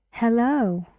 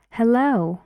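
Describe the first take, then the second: No difference in how they are said.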